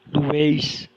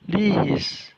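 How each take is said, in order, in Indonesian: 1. Vokal pertama diucapkan sebagai 'u'. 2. Vokal pertama diucapkan sebagai 'i'. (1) "itu keliru ya, keliru. Karena lambda epsilon tidak pernah dibaca lu" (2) "lihis, ya, artinya engkau sedang membebaskan"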